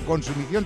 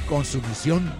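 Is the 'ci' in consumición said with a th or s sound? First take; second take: th; s. First: The 'ci' is said with a th sound. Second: The 'ci' is said with an s sound.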